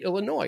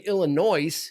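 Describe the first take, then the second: First: The final s sound is left silent. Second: The final s sound is pronounced. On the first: The speaker calls it right. "you say Illinois. It's silent" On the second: The speaker calls it wrong. "You don't say Illinois"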